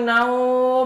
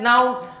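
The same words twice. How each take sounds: First: The vowel in naum is drawn out long. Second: The vowel in naum is kept short. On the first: "mau panjang naum" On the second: "mau pendek naum"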